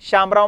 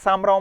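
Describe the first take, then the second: First: The name begins with a sh sound. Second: The name begins with an s sound. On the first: "शामराव म्हणताना" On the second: "ते सामराव म्हणतील"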